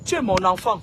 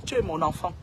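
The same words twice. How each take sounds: First: Said in the usual way. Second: Father to his son, saying it again lower and softer; softer, lower repeat. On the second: Real, not acted. Softer, lower second take.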